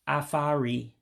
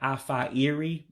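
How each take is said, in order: First: The first i is dropped, merging into one word. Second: Both words are said fully, keeping the first i. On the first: "you drop that first I when you pronounce it" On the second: "you're not actually saying afa iri"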